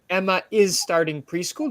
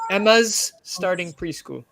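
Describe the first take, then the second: First: Emma and is are said as two words. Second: Emma and is merge into one contracted word. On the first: "instead of saying Emma is starting preschool" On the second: "this is another way to say Emma is"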